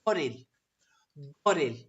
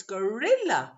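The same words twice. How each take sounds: First: Turkish "goril" with stress on "go"; first-syllable stress. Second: English "gorilla" with stress on "RIL"; weak "go", lift and push "rilla"; second-syllable stress. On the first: Teacher showing the Turkish word, first syllable stressed. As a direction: hit "go", let "ril" drop. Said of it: "And it's the first syllable". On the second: Teacher correcting the Turkish pattern, middle syllable stressed. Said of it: "So it's the second syllable". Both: Shown as a demonstration.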